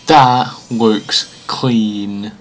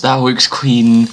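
First: Each word drawn out slowly; slow, savouring. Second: Said in the usual way. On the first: Real, not acted. Fan admiring the graphics, slow and savouring. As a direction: stretch it out in low admiration.

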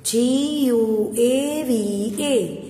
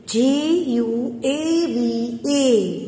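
First: Slow spelling. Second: Letters of guava spelled very slowly; slow spelling. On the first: Teacher repeating the guava spelling for her pupils. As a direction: repeat each letter gently for the class. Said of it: "spelling repeated". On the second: Teacher spelling guava letter by letter for her pupils. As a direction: lay out each letter for young writers. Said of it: "spelling letters out". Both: Shown as a demonstration.

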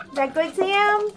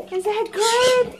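First: Said in the usual way. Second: High cooing pet voice. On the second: Real, not acted. Owner cooing to her pig at dinner in a high pet voice.

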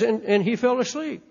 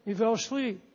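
First: Said in the usual way. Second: Dropped to a near hush; soft echo. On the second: Shown as a demonstration. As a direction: let it sink away quietly. Repeated line, faded softly.

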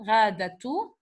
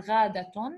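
First: Ghadatu ending on an open "tu"; ending without n. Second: Ghadatun sounded out to a final n; full -tun ending. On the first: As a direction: say ghadatu with no final n, rising at the end. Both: Shown as a demonstration. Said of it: "or ghadatun".

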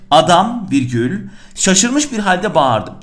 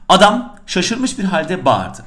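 First: Slow reading with "virgül" spoken after "Adam" and a pause on it; dictation with comma named. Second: Slow, even dictation of "Adam şaşırmış bir halde bağırdı"; slow dictation reading. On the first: Teacher dictating with the punctuation spoken aloud, slow. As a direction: mark the comma aloud after Adam, then go on slowly with "şaşırmış". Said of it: "iki nokta akla hiç gelmemeli". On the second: Teacher dictating the exercise sentence to students, slow and even. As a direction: read the sentence slowly, word by word, as the bare exercise text. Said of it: "Ne diyor?".

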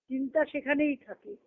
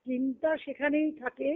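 The two takes are said the same way.

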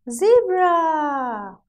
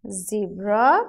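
First: High, loud "zebra" gliding down; zebra, long falling model for children; zebra drawn out, falling. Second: Put-on zebra, rising for children to repeat; zebra with rising tune. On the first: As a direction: stretch the end of zebra downward. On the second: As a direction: end zebra on a rise. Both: Shown as a demonstration. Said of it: "Now say it with me".

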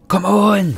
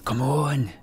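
First: Loud Scottish "Come on." with a high rolled burr; Scottish accent. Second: Said in the usual way. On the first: Shown as a demonstration. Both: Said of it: "I apologise for my Scottish accent".

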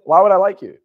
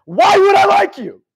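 First: Firm challenge, loud on the first word; pointed, incredulous comeback; blunt retort. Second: High, drawn-out furious yell; loud, exasperated confrontation, stretched out; in-his-face shout. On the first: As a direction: push back bluntly, short of yelling. Blunt retort, first milder take. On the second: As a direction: bellow it slowly at full force. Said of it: "I got in his face". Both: Retold or imitated.

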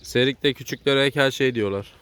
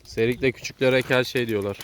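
First: Slow repeat. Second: Slow, clear repeat for a listener; slower clear repeat. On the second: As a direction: spell it out slowly. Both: Real, not acted.

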